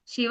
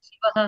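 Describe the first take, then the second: First: The final sound is a hissing sh. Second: The final sound is a breathy h. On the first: The speaker calls it right. "एस श जैसा sound" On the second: The speaker calls it wrong. "हर जगह ह उच्चारण करते थे"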